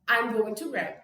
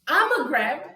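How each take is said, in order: First: 'Going to' is said in full, every syllable. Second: 'Going to' is shrunk to a single short syllable.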